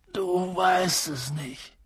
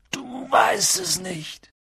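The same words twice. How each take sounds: First: Soft, slow disbelief, pitched up; stunned. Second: High, slow cry of disbelief; aghast. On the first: Giant realizes the boy knows nothing, stunned and soft. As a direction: say it slowly under your breath. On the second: Giant grasps that the boy knows nothing, aghast. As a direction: stretch it out high in dismay. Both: A narrator's reading.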